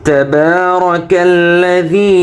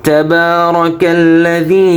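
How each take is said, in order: No difference in how they are said.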